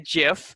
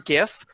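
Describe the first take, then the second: First: The word begins with a soft J sound. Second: The word begins with a hard G sound. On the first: "like the peanut butter" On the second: "I prefer"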